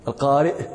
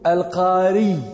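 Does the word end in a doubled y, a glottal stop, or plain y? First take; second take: glottal stop; doubled y. First: The word ends with a glottal stop after the vowel. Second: The word ends in a doubled, lengthened y sound. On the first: The speaker calls it right. "ويمكنكم أن تقولوا القارئ" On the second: The speaker calls it wrong. "ولا يمكنكم أن تقولوا القاري بتشديد الياء"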